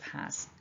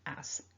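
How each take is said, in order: First: The starting H sound is clearly said. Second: The starting H sound is left out. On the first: This is the careful, full form. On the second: This is the casual, informal way.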